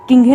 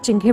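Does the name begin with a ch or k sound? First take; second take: k; ch. First: The name starts with a k sound. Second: The name starts with a ch sound. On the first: The speaker calls it wrong. "किंघे ना बोल के" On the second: The speaker calls it right. "चिंघे बोलती हूँ"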